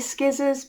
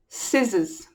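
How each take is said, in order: First: The word begins with an sk sound. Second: The word begins with a plain s sound. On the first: The speaker calls it wrong. "Lots of English children say skizzers because of the spelling" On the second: The speaker calls it right. "Ignore the C. The C isn't there"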